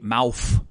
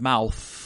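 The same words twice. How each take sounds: First: The word ends with an F sound. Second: The word ends with a TH sound.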